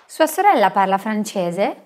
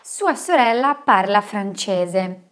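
First: It is said as a question, rising. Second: It is said as a statement, falling.

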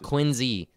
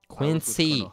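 First: The middle consonant is a buzzing Z sound. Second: The middle consonant is a hissing S sound. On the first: The speaker calls it wrong. "not Quincy. There's no Z" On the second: The speaker calls it right.

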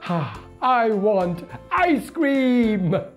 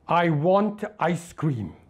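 First: It sounds happy. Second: It sounds angry.

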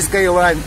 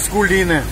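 First: It is said as 'Skyline'. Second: It is said as 'Skuliny'. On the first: The speaker calls it wrong. "не Скайлайн" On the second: The speaker calls it right. "а Скулины, чтобы вы знали"

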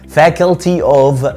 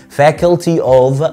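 No difference in how they are said.

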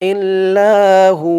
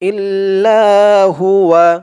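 First: It ends on a lengthened hu and stops. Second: It ends on full huwa without stopping. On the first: The reciter pauses at this point. "থামার সময় উচ্চারণ করবেন ইল্লাহু, হু বলে 1 আলিফ টান দিয়ে থামবেন" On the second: The reciter continues without pausing. "আমরা এখানে থামবো না, ইল্লাহুয়া হুয়া বলবো"

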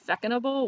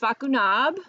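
First: The name ends with an English '-able' sound. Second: The name ends with a short French '-nab' sound. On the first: The speaker calls it wrong. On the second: The speaker calls it right. "So it's Facunab"

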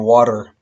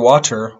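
First: The t is a quick r-like flap. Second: The t is a clear t sound.

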